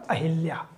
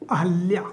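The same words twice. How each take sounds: First: अहिल्या with an "i" after the h; common mispronunciation. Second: अहल्या with "ha", no "i" after it; correct pronunciation. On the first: Teacher showing students the mistaken name, common mispronunciation. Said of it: "लोग अहिल्या ही बोलते हैं". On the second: Teacher giving students the right name, careful pronunciation. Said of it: "सही है". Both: Shown as a demonstration.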